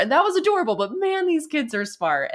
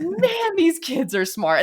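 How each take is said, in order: First: Excited. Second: High amazed "man", slow. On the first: Real, not acted. Repeats line, laughing high. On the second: Retold or imitated. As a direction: marvel at the kids. Amazed reaction to niece.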